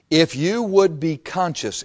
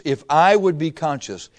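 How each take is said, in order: First: Contrastive weight on "you"; "you" stressed, measured phrase. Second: Contrastive weight on "I"; "I" stressed as a correction. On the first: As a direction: point "you" at the listener, setting it apart. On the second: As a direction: lean on "I" to include yourself. Speaker swaps himself in for you. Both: Real, not acted.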